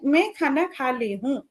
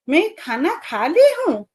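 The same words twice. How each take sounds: First: It is said plainly as a statement. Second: It is said with pressure, as a question. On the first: The speaker reports having eaten. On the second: The speaker asks whether they have eaten.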